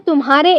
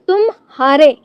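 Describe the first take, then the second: First: It is said as one word without a pause. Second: There is a slight pause after tum. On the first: It means yours. "यह एक सर्वनाम है" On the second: It means you were defeated. "यहाँ तुम के बाद हल्का क्या ठहराव"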